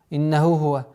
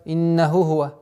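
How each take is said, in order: First: The two h sounds run together into one. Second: The same.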